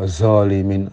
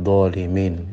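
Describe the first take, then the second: First: The first consonant is a plain, non-emphatic za. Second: The first consonant sounds like the letter dhad. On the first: "maka dibaca za ... Nah ini menyalahi apa? Ya menyalahi sifat itbaq" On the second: "ada orang mengucapkan dha seperti dhad"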